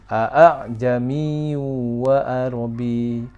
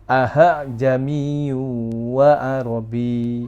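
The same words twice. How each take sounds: First: The second hamza is softened toward a long a. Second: The second hamza is said with an h sound. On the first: The speaker calls it right. "dibaca antara hamzah dan alif" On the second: The speaker calls it wrong. "Ada yang membaca hamzah yang keduanya dengan he"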